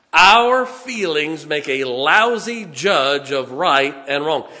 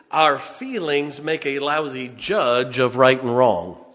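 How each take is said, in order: First: Loud, slow stress on each of "Our feelings make a lousy judge"; emphatic repeat. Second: Said in the usual way. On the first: Real, not acted. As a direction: hammer "Our" and "lousy judge", drawing them out.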